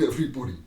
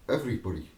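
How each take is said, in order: First: EVERYBODY said with more push and pace; stress on EVERYBODY. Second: Said in the usual way. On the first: Real, not acted. Speaker insisting who will walk away, stress on EVERYBODY. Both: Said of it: "I mean everybody".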